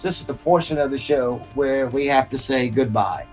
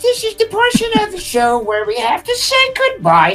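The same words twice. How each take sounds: First: It is said in a normal speaking voice. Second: It is said in an exaggerated put-on voice.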